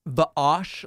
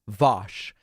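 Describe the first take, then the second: First: The name has a catch splitting its vowel sounds. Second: The name is said as one smooth syllable. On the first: The speaker calls it wrong. "It's not Vaosh, like a sort of Hebrew with the apostrophe" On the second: The speaker calls it right. "It's just Vosh"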